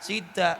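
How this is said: The final vowel is pronounced as a. This is how ngapak speakers read it. "Tulisannya sida ya tetep diwaca sida"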